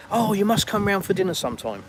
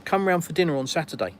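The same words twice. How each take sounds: First: Higher, gushing mock politeness; insincere invitation. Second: Straightforward, meant offer; sincere invitation. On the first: Westerner making an empty dinner invitation, falsely enthusiastic. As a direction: toss out a showy invite you don't mean. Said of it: "it's not sincere, it's not genuine". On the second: Acted. Russian inviting you round for dinner, sincerely meant. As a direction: invite plainly, with a slight lift in pitch. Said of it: "it's 'cause they mean it".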